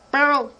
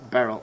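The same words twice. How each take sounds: First: Higher, sharp call of a name; raised-voice hail. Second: Said in the usual way. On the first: Acted. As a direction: call over to get his attention. Calling the man by name.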